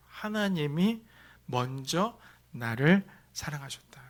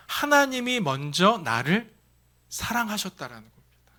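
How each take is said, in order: First: Said in the usual way. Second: 하나님이 slow and stressed, rising; slow emphatic statement. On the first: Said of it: "이것을 먼저 생각하십시오". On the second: Shown as a demonstration. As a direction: lean hard on 하나님이 and slow down. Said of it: "한마디로 정리하면". (하나님이를 강조하며 천천히)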